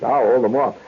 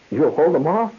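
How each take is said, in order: First: Said in the usual way. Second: Rising, disbelieving check on OFF; questioning echo. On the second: Retold or imitated. Reporter doubting the lion tamer's promise, questioning. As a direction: throw it back as a question, OFF going up.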